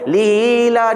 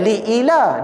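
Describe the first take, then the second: First: Li runs smoothly into ila without a stop. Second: A glottal stop separates li from ila. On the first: The speaker calls it right. "dia macam antara ada tak ada" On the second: The speaker calls it wrong. "bukan li ila"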